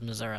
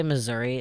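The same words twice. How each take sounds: First: "Missouri" ending in uh, muh-ZUR-uh; rural Missouri. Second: "Missouri" ending in ee, muh-ZUR-ee; standard Missouri. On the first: Naming the rest of state, Missouri ending in uh. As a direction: finish "Missouri" on uh. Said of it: "Missouri is actually just Saint Louis". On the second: Splitting city from state, Missouri ending in ee. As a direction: finish "Missouri" on ee. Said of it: "I like to say Missouri is actually just Saint Louis". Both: Shown as a demonstration.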